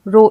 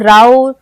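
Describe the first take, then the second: First: The vowel sounds like 'oh' in go. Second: The vowel sounds like 'ow' in cow. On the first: The speaker calls it right. "तो हमें ओ का उच्चारण मिलेगा" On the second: The speaker calls it wrong. "ये नहीं पढ़ेंगे"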